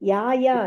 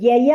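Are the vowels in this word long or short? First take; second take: long; short. First: Both vowels are said long. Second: Both vowels are said short. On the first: The speaker calls it wrong. "ಅದು ಯಾ ಯಾ ಅಲ್ಲ" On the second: The speaker calls it right. "First word ಯಯ"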